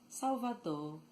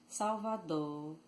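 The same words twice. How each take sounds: The two takes are said the same way.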